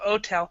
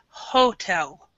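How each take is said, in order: First: The word starts without an h sound. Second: The word starts with an h sound. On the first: The speaker calls it wrong. "instead of" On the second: The speaker calls it right. "we actually pronounce the H"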